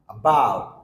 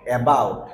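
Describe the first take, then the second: First: The first vowel is short and barely touched. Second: The first vowel is full and clearly pronounced. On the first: The speaker calls it right. "আটা just touch করে যাবে" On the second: The speaker calls it wrong. "Not about"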